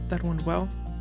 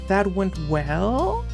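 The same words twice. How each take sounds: First: The pitch stays flat in a monotone throughout. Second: The pitch rises at the end like a question. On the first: "something more like this, talking like this" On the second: "Your voice rises, right, in intonation"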